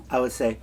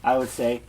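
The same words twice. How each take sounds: The two takes are said the same way.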